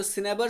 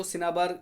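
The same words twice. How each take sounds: First: Said in the usual way. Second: सिनाबार with a long 'aa' in the middle and end; alternative pronunciation. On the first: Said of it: "pronunciation थोड़ा सा". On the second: Shown as a demonstration. Teacher showing students how some people say it, सिनाबार with long 'aa' vowels. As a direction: say सिनाबार as 'si-naa-baar', not 'si-ne-bar'. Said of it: "कुछ लोग इसको सिनाबार भी कहते हैं".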